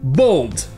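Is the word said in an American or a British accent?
British. British accent, with a rounded vowel like in thought. "Mais dans celui avec un A vous avez le son O"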